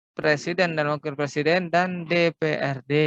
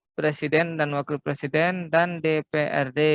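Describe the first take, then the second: The two takes are said the same way.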